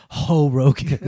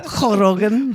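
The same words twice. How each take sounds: First: Light Spanish-accented "Ho Rogan". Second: Higher "Ho Rogan" with a throaty Spanish jota; hammed-up Spanish accent through a laugh; exaggerated Spanish accent. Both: Shown as a demonstration. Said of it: "with a Spanish accent".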